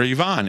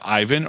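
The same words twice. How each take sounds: First: Yvonne as ee-VAHN; Yvonne with an EE start and open AH; alternative pronunciation. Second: Ivan as EYE-vun; anglicised pronunciation. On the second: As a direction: say Ivan with stressed EYE up front. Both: Retold or imitated. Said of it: "how do you pronounce your name?".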